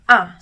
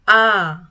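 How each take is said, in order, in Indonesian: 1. Vokalnya pendek dan terpotong. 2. Vokalnya ditahan panjang dan dipanjangkan. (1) "kita sebutnya hanya satu kali a" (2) "kita berhenti mengucapkan kata A ketika jempol ini sudah tidur"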